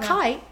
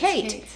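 First: The name is said with an Australian accent. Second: The name is said without an Australian accent.

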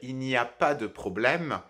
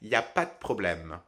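First: Every word and syllable is pronounced in full. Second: Sounds are dropped and the words run together. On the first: This is the standard form. "la version standard" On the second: This is the informal spoken form. "la version orale informelle"

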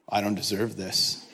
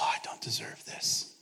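First: It is said in an exasperated, complaining tone. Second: It is said in a warm, grateful tone. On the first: The speaker feels treated worse than is earned. "I say it in a very different way" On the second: The speaker feels blessed beyond what is earned. "I can look at those photos and just think, oh"

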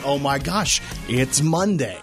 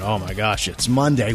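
First: It is said with a happy, excited tone. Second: It is said with a groaning, dreading tone.

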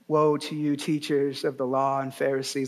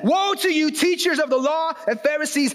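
First: The words are spoken in a soft, gentle tone. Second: The words are spoken in a loud, angry tone. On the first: The speaker calls it wrong. "Jesus didn't say it like this. ... like in the movies" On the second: The speaker calls it right. "He says"

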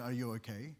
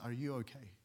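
First: It is asked in a quick, casual way. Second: It is asked in a caring, sincere way.

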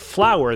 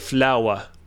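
First: It is said in a plain English accent. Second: It is said in a French accent.

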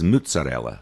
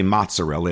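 First: The first vowel is a 'u' sound. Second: The first vowel is an 'o' sound. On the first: This is the Neapolitan dialect form. "it says mozzarella with a U" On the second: This is the standard Italian form. "it doesn't say mozzarella"

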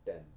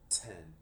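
First: The t has no puff of air. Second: The t has a strong puff of air.

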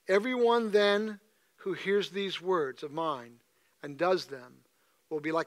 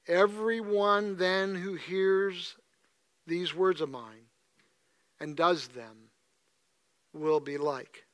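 First: It is read at a normal, even pace. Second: It is read slowly and thoughtfully.

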